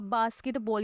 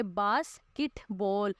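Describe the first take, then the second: First: Said in the usual way. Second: basket बॉल slowly split into three beats, बास, केट, बॉल; teacher slowly sounding out each syllable of basket बॉल. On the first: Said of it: "ये तीन, इसमें कैसे देखें?". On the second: Shown as a demonstration. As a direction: break basket बॉल into syllables with clear gaps. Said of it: "हम इस तरह से बोलते हैं".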